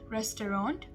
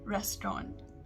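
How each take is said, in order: First: It is said fully, as it is spelled. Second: It is said in a shortened, compressed form. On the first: "in the American pronunciation, we pronounce it the way we spell it" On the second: "whereas in the British pronunciation"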